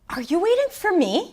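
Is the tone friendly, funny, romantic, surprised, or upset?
surprised. It is said in a surprised tone.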